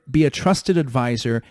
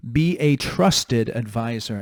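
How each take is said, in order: First: Trusted pushed out as the key word; stress on trusted. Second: Trusted leaned on in a slow line; slow down and land on trusted; stress on trusted. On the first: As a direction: hit trusted firmly. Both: Shown as a demonstration. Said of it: "make the emphasis on the word trust".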